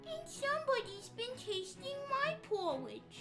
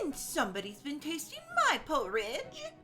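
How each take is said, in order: First: It is said in a high, squeaky voice. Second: It is said in a medium-pitched voice.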